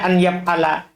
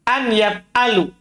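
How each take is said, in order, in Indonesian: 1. Vokal akhir kata kerja adalah 'a'. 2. Vokal akhir kata kerja adalah 'u'. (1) "jadi ini salah kalau dibaca an yaf'ala" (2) "tidak menasab"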